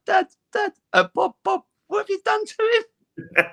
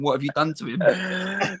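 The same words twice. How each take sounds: First: High, wailing mock cry of a shocked mum; imitating his tearful mum at the airport, high and wailing. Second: Slow, mildly tearful imitation of mum; a touch of mock tearful dismay; mum crying. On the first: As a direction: wail it like a mother in tears at the sight of her son. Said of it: "she started crying and was like". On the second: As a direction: drag it out like a shocked, weepy mother. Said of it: "my mum cried in the airport, going".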